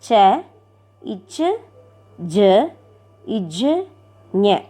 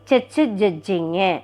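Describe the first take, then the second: First: The letters are said slowly, one by one. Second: The letters are said quickly, run together.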